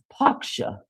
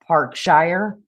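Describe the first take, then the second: First: It is said in an imitated English accent. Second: It is said in the speaker's own American accent.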